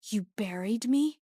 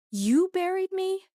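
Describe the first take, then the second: First: Said in the usual way. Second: YOU buried me, thrown up high in shock; stunned disbelief, voice cracking upward; disbelieving cry. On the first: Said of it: "repeated in disbelief". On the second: A narrator's reading. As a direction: pitch leaps high on you, louder. Repeated in disbelief.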